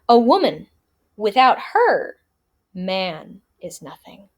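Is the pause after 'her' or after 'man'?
after her. There is a pause after 'her'.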